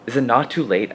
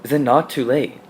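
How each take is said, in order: First: Plead, a touch louder; an understated, persistent plea; persistent begging. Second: Louder, insistent begging; a touch of eagerness in the begging; almost eager plea. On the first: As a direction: beg with mild insistence. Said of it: "I beg, persistently". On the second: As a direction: plead again with mild eagerness. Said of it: "almost eagerly". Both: A narrator's reading.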